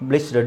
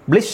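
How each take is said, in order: First: The syllable ends with a d sound. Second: The syllable ends without a d sound. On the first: The speaker calls it right. "ಡಿ ಹಾಕಬೇಕು" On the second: The speaker calls it wrong. "ಅಲ್ಲ"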